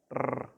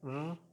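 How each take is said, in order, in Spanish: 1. El sonido R es fuerte y enérgico. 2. El sonido R es simple y suave. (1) "hace la R más fuerte" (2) "la R normal es R"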